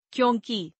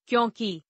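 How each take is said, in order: First: Said in the usual way. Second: क्योंकि ending on long ee, "kyonkee"; mispronounced. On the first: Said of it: "शुद्ध". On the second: Shown as a demonstration. Teacher showing an i error, mispronounced with long final ee. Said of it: "अशुद्ध".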